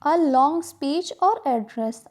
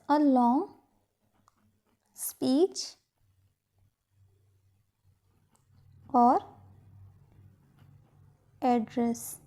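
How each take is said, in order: First: Said in the usual way. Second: Soft, broken up with long pauses; quiet word-by-word dictation, leaving time to write. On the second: Shown as a demonstration. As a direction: dictate it piece by piece. Dictates the same phrase in pieces.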